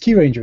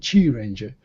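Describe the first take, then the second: First: The name begins with a 'kyoo' sound. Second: The name begins with a 'chee' sound.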